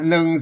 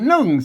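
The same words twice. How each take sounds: First: The syllable is said on a level mid tone. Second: The syllable is said on a falling tone. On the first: "หนึ่งเสียงสามัญ" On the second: "อ่านหนึ่งเสียงโทปกตินะครับ"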